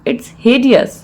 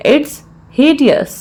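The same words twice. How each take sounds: First: Said in the usual way. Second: Measured, with a clear mid-phrase pause; broken into parts. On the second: Shown as a demonstration. Teacher repeats the phrase for learners, in separated parts.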